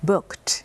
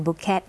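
First: "booked" as one syllable, bookt; one-syllable past ending. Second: "bucket" said as two syllables, buk-ket; wrong two-syllable reading. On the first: Teacher models the past tense for students, "booked" in one syllable ending kt. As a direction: close "booked" on a crisp t with no extra vowel. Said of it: "ไม่อ่าน bucket นะคะ book booked". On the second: Teacher warns students not to read it so, "bucket" mispronounced in two syllables. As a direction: sound out the ending of "bucket" as a full extra syllable. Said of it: "ไม่อ่าน bucket". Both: Shown as a demonstration.

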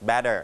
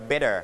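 First: British "better", T clearly released; British pronunciation. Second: American "better", T as a light tap; American pronunciation. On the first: Teacher comparing a similar word for students, British "better" with clear T. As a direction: pronounce "better" British-style with a hard T. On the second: Teacher giving the American comparison to students, American "better" with tapped T. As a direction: pronounce "better" American-style, middle sounding like D. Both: Shown as a demonstration. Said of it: "ถ้าเป็นอเมริกันก็".

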